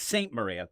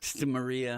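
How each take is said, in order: First: The first word sounds like 'saint'. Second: The first word sounds like 'stuh'. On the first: The speaker calls it right. "That's what it is" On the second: The speaker calls it wrong. "I always say it wrong"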